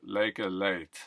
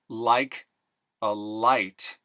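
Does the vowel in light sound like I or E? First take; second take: E; I. First: The vowel in light sounds closer to E. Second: The vowel in light is a normal I sound.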